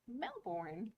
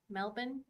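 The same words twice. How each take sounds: First: The final syllable sounds like 'born'. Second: The final syllable sounds like 'bin'. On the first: The speaker calls it wrong. "because I don't have an Australian accent, it sounds like Melbourne" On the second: The speaker calls it right. "Melbourne, bin. B I N"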